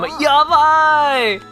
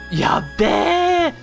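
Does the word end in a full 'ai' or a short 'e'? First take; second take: full ai; short e. First: The ending is a full 'ai' sound. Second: The ending is shortened to an 'e' sound. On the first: The speaker calls it right. "I fully enunciate my my i's and a's" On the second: The speaker calls it wrong. "I don't say yabe. That's Tokyo dialect"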